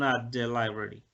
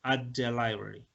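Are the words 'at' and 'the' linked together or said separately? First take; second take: linked; linked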